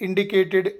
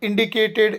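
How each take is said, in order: Both takes have the same delivery.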